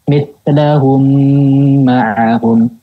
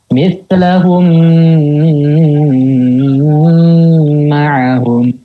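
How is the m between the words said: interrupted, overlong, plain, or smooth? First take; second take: smooth; overlong. First: The m flows smoothly with a full nasal hum. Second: The nasal m is held far too long. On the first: The speaker calls it right. "langsung dialirkan ... yaitu gunakan sempurna" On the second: The speaker calls it wrong. "Itu kelebihan itu"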